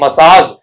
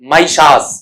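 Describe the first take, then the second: First: The first syllable sounds like 'ma'. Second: The first syllable sounds like 'my'. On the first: The speaker calls it wrong. "ये अपन बोलते हैं मसाज, जबकि मसाज होता नहीं" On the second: The speaker calls it right. "क्या होता है आपका माइशास"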